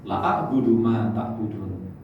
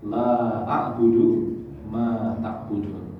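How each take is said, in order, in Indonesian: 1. Vokal setelah 'la' dipotong pendek. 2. Vokal setelah 'la' dibaca panjang.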